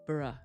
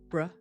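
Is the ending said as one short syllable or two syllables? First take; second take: two syllables; one syllable. First: It is slightly longer, with two syllables. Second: It is one short syllable. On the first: "The other is slightly longer with two sounds" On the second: "One is shorter"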